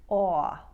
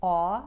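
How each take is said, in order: First: Narrow, drawn-out "awe" with an off-glide; long, loud New York "awe". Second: Said in the usual way. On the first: Shown as a demonstration. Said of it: "more narrow and a longer drawn". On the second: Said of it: "Important New York sound number one".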